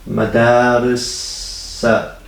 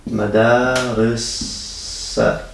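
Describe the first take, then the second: The two takes are said the same way.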